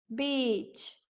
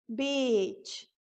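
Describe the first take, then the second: The two takes are said the same way.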